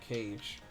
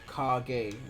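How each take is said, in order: First: It is said as one syllable, like cage. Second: It is said as two syllables, kah-geh. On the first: The speaker calls it wrong. "not Cage" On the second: The speaker calls it right. "It's pronounced Kage"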